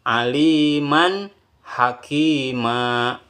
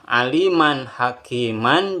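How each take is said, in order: First: The last word ends on a vowel. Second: The last word ends with an n sound.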